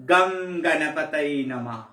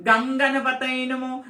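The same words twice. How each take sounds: First: Low, slow chant, গঙ্গানা opened as a long GAM with M; correct Sanskrit pronunciation. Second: Slow, level chant of গঙ্গানাপাতায় with NG for M; wrong mantra pronunciation. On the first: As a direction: intone গঙ্গানা deep and drawn out, humming M after the first GA. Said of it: "উচ্চারণটা সংস্কৃতে শিখতে হবে". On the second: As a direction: drone গঙ্গানাপাতায় on one note, NG instead of M. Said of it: "এটা ভুল উচ্চারণ করলে". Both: Shown as a demonstration.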